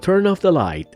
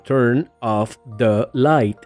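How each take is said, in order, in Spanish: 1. Las palabras se juntan en un solo sonido continuo. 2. Cada palabra se dice por separado, con pausas. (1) "en el habla natural los sonidos se unen" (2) "Si separas cada palabra sonaría como"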